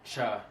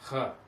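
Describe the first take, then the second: First: It begins with a hard ch sound. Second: It begins with a breathy h-like sound. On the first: The speaker calls it wrong. "It's not cha" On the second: The speaker calls it right. "It's cha"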